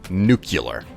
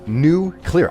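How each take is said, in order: First: The word is slurred together as one run. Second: The word is split into two clear parts. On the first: The speaker calls it wrong. "slur it together like that" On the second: The speaker calls it right. "It's new clear"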